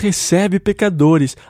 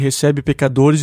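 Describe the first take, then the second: First: It is said in a joyful, glad tone. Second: It is said in a scornful, disparaging tone. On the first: Welcoming sinners is good news worth celebrating. "Isso deveria ser dito com alegria" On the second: Welcoming sinners is something to condemn. "Eles diziam com sentido depreciativo"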